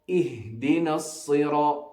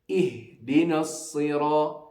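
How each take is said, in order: No difference in how they are said.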